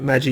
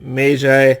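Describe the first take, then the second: First: The word is said as one single syllable. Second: The word is said with more than one syllable. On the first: The speaker's own chosen way of saying it. "because it's one syllable" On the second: Someone else says it this way. "I think James pronounces it magi"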